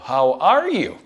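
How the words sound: The stress is on are.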